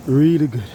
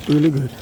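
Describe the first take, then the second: No difference in how they are said.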